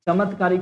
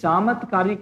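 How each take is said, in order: First: The first vowel is short. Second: The first vowel is long. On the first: The speaker calls it wrong. "ತಪ್ಪಾಗ್ಬಿಡ್ತದೆ" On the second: The speaker calls it right. "ಕರೆಕ್ಟ್ ಆಗಿ ಬಿಡ್ತದೆ"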